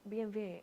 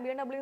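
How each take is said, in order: First: The last letter is said as vay. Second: The last letter is said as double-u. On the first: It follows the original German pronunciation. "B M വേ എന്നാ പറയേണ്ടതെന്നാണ്" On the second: It follows the common English letter names. "B M ഡബ്ല്യു എന്നും പറയാം"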